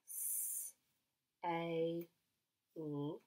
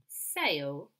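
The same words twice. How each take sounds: First: "S, A, L" as hissed s, long ay, separate l; sounded out. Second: Said in the usual way. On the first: Shown as a demonstration. Teacher helps children spell, "S, A, L" sounded out as s-ay-l. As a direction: say "S, A, L" sound by sound, with gaps. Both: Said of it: "sentence I would like you to write".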